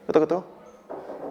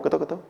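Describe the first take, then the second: First: 끄덕끄덕 drawn out slowly with a rising end; slow nodding sound. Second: Said in the usual way. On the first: Shown as a demonstration.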